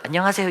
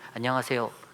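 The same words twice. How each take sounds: First: The greeting sounds warm and heartfelt. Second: The greeting sounds stiff and dry.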